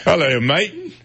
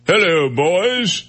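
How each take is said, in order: First: A mock Australian greeting pitched high; Australian accent. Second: Slow, high Liverpool greeting with a hint of throat. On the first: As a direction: try an Australian hello. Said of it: "so that was Australian". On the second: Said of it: "didn't he talk like this". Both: Shown as a demonstration.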